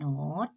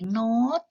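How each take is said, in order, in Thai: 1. พยางค์นี้ออกเสียงวรรณยุกต์เสียงขึ้น 2. พยางค์นี้ออกเสียงวรรณยุกต์เสียงสูง (1) "เสียงเติมจัตวาเป็นเสียงจัตวา" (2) "พอเติมไม่โท, เสียงตรีเป็นเสียงโน้ต"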